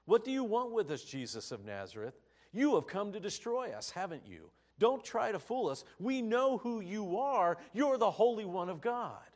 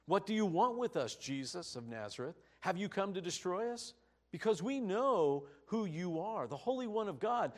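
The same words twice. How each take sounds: First: "You have come to destroy us" loud, high, falling as an accusation; statement of fact. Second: "Have you come to destroy us" lifted high, rising as a question; read as a question. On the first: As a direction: assert "You have come to destroy us", then drop on "haven't you". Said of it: "could be read as a statement of fact". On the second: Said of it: "this could be read as a question". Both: Shown as a demonstration.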